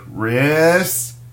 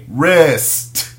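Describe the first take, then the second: First: The pitch rises slowly through the word. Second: The pitch stays flat without rising. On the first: The speaker calls it right. "you got to have your voice elevate slowly" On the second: The speaker calls it wrong. "You can't just say wrist"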